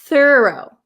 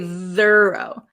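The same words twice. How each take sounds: First: The th sound at the start is voiceless. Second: The th sound at the start is voiced. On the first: The speaker calls it right. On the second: The speaker calls it wrong.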